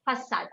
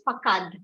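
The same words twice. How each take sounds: First: Façade as "fa-sad"; soft S sound. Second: Facade said wrongly as "fa-kad"; hard K sound. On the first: Teacher showing what the accent mark does, façade with soft S. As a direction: say façade with an S in the middle. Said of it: "pronounce it with a sa sound". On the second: Teacher showing it without the mark, facade as "fa-kad". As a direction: put a K in the middle of facade. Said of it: "Otherwise, you should have pronounced it as". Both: Shown as a demonstration.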